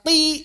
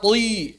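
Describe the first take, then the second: First: The t is fully light and thin. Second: The t is overly heavy, sounding like tui. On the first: "Jangan dibaca ti" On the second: "jangan dibaca tui berlebihan"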